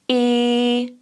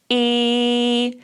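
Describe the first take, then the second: First: The vowel starts with a small glottal pop. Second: The vowel starts with a small glottal pop.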